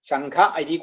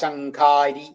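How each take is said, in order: First: Two separate words, with no vowel merging. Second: One word, with the vowels merged into long a. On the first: "ശംഖ അരി കൂടുമ്പോ" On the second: "ശംഖാരിയായി"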